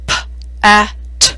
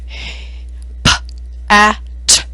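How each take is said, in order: First: "p, a, t" sounded out, each letter with a trailing uh; sounding out words with uh. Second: "P, a, t" with an uh added to each sound; sounding out words with uh. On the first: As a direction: sound out "p, a, t" adding uh. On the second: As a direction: sound out "P, a, t" with extra uhs. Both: Shown as a demonstration. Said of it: "listen what happens if the uh sound is included".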